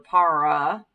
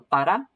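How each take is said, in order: First: The r is a drawn-out English-style r. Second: The r is a quick tongue tap. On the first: The speaker calls it wrong. "These R's are not er, so you don't say ir or para" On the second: The speaker calls it right. "It's almost more like a D. You like tap the your tongue on the roof of your mouth"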